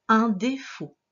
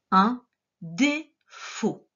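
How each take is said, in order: First: Said in the usual way. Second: UN DÉFAUT slow, with a pause between syllables; word dictation. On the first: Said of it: "Le deuxième mot qu'il fallait écrire". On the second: Shown as a demonstration. Teacher dictating the last word, slow syllable-by-syllable. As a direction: separate UN, DÉ and FAUT clearly. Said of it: "le dernier mot".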